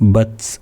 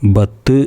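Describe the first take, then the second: First: The final t ends with a slight puff. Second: The final t is cut off with no puff. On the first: The speaker calls it right. "അത് പറയേണ്ടത് ബത്സ് എന്നാണ്" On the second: The speaker calls it wrong. "ബത്ത് എന്ന് പറയരുത്"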